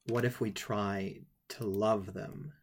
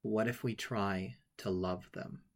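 First: Put-on slow, hushed and tender, a light child's voice; innocent child's question. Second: Put-on innocent child's question. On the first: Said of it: "with all the innocence of a child". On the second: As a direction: ask it gently, like an innocent little boy. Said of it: "says with all the innocence of a child".

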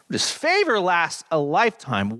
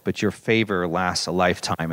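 First: Higher, ringing stress on favor; fervent psalm proclamation. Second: Lower, hushed murmur of favor; prayerful echo. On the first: Pastor proclaiming the psalm's promise, ringing and lifted. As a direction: proclaim favor as good news. Psalm reading, praise passage. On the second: Pastor echoing the psalm in prayer, low and hushed. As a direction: pray favor back gently to God. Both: Acted.

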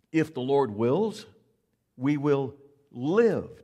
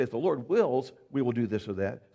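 First: "wills" and "live" slow and loud, held long; stress on wills. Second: Said in the usual way. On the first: Shown as a demonstration. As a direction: draw out "If the Lord wills, we will live" with weight. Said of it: "Do you catch that?". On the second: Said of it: "It doesn't say".

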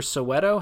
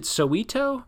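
First: Soweto with an "eh" in the middle, so-WEH-to; so-WEH-to pronunciation. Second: Soweto with an "ee" in the middle, so-WEE-to; so-WEE-to pronunciation. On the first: Host offers the other option, Soweto as so-WEH-to. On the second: Host unsure how the name is said, Soweto as so-WEE-to. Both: Shown as a demonstration. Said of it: "is it Soweto or Soweto?".

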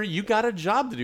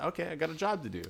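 First: High, insistent mock command; retold boss's order. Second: Quick, higher, unforceful acceptance; retold compliance. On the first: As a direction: act out a boss ordering an employee. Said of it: "He's telling her". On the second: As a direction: imitate an employee giving in without fuss. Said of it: "But she said".

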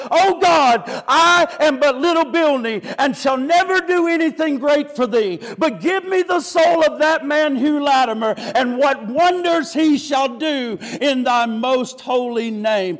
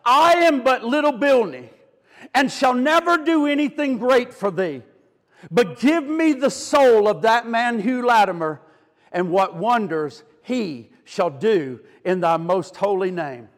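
First: Cried out high and loud, easing at the end; ringing, climactic plea to God; impassioned retold prayer. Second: Measured prayer with spaces between phrases; retold prayer. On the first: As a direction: preach the prayer at full force. Prayer repeated as sermon climax. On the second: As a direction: begin in full voice, sink gently toward the end. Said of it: "he cried".

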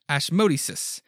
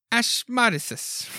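First: Said in the usual way. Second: "Ashmodeus" drawn out slowly and pitched much higher, as "ASH-mah-dih-sus"; fumbled name try. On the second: Shown as a demonstration. Unsure of the demon's name, trying "Ashmodeus" slow and high.

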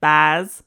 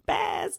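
First: "Baz" with a broad Australian accent. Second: Very high, breathy "Baz"; high squeaky Baz. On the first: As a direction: say "Baz" like an Aussie. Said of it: "You gotta say it like Australian". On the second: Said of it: "which I love". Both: Shown as a demonstration.

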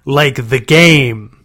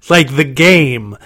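First: Chanted, slower, loud creature echo stretching game; chanted, repeat the taunt, drawn out; drawn-out monster chant. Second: Chanted, loud, slow singsong monster; chanted, taunt like a playground game; gleeful monster chant. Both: A narrator's reading. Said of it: "growling impersonation".

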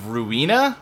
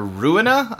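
First: Ruina as roo-EE-nah, stressed in the middle; first pronunciation guess. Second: Ruina as ROO-in-ah, stressed up front; alternative pronunciation. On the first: Unsure of a game's name, trying Ruina as roo-EE-nah. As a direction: say Ruina with a long 'ee' in the middle. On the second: Unsure of a game's name, offering Ruina as ROO-in-ah. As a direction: say Ruina with a short middle 'i', questioningly. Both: Shown as a demonstration. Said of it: "I don't know how you say it".

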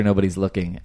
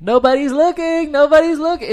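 First: Said in the usual way. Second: Very high, loud mock scream. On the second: Imitating a kid as the friend runs off, high-pitched screaming. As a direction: shriek it like an excited kid. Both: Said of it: "and screaming it".

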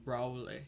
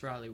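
First: Raleigh with a long "oh" in the first syllable, RO-lee; Southern pronunciation. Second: Said in the usual way. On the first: Retold or imitated. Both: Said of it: "he had a southern accent".

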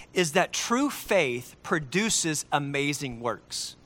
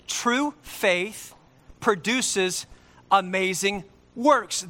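First: True faith produces amazing works, slow and weighty; a preacher's slow emphasis; slow emphatic. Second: TRUE faith, then produces, then amazing works, each beat set apart by pauses; spaced out, TRUE lifted and leaned on; stress on TRUE. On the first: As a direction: lean on each word of the point. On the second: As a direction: split it into slow phrases, punching TRUE. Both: Shown as a demonstration. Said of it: "Let me say that again".

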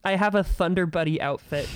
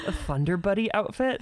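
First: Said in the usual way. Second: Rising, puzzled reread; puzzled question. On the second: Real, not acted. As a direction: ask it back in confusion. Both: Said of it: "I don't know what that means".

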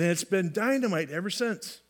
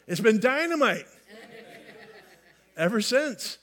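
First: Said in the usual way. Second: Higher, louder burst on dynamite; emphatic retry. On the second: Shown as a demonstration. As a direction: punch it up with big enthusiasm. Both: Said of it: "I should try that again".

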